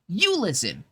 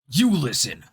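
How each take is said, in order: First: It is said in a put-on character voice. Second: It is said in a tough male action-hero voice. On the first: "Let me see if I can do it in like a, a Chloe voice" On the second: "We can do like a generic male action hero"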